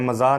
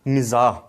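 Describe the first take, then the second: First: The first vowel is an 'a' sound. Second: The first vowel is an 'i' sound. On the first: The speaker calls it wrong. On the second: The speaker calls it right.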